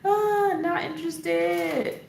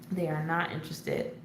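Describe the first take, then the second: First: Drawn out and much higher, slow; a slow, high, sing-song mock complaint; mock dismay. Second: Said in the usual way. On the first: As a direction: stretch it out in mock indignation. Repeats the phrase drawn out.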